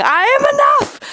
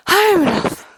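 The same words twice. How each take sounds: First: Mock triumphant self-affirmation; triumphant declaration. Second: Said in the usual way. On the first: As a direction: shout it like a victory. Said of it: "affirmation declared". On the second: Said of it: "affirmation repeated".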